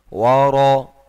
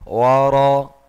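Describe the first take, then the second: The two takes are said the same way.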